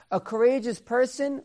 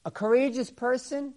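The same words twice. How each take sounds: The two takes are said the same way.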